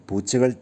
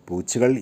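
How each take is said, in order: No difference in how they are said.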